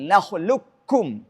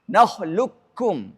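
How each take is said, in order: No difference in how they are said.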